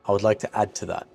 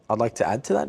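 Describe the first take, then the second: First: The pitch falls flat at the end. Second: The pitch rises at the end. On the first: The speaker is certain and confident. The speaker calls it right. "You want your tone to go down, flat at the end of the sentence" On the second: The speaker sounds unsure. The speaker calls it wrong. "You don't want your tone to go up at the end of the sentence"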